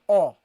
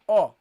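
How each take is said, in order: First: The sound is pronounced heavily and full. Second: The sound is pronounced heavily and full.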